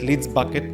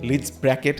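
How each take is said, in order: First: The second word sounds like 'Bucket'. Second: The second word sounds like 'Bracket'. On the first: "they pronounce it at Leeds Bucket"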